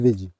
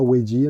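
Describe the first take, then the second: First: The name begins with a V sound. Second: The name begins with a W sound. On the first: The speaker calls it right. "on dit Vedi" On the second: The speaker calls it wrong. "On ne dit pas Wedi"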